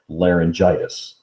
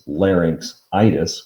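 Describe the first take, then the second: First: A j sound comes before the ending. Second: A ks sound comes before the ending. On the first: It is the form people actually use. "they pronounce it laryngitis" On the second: It is the form built from the word larynx. "it is larynxitis"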